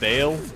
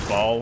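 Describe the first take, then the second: First: The vowel sounds like 'ay' in 'day'. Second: The vowel sounds like 'aw' in 'ball'. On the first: This is the official pronunciation. "it's pronounced Bale" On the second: This version sounds more evil. "I say Ball"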